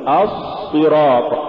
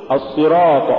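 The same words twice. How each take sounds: First: الصراط with a long hissing heavy s; asss-sirat, exaggerated s in الصراط; overdone softness. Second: الصراط with a measured heavy s; moderately held sad in الصراط; balanced sad. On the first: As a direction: drag out the sad in الصراط. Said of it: "ولا تقل". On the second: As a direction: say الصراط without dragging the s. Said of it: "قل". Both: Shown as a demonstration.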